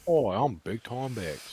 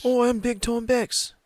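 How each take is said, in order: First: Big Time Bex voice. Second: Much higher, louder cartoon voice; Big Time Bex voice. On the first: Retold or imitated. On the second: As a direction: squeal it like a bobbing cartoon head. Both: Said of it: "she's like".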